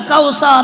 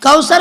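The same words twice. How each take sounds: First: "کوثر" stretched into "kau-saa-raa"; mispronounced word. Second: Said in the usual way. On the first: Retold or imitated. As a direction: drag out "کوثر" with long open vowels, mocking. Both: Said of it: "کوثر بھی نہیں کہتا".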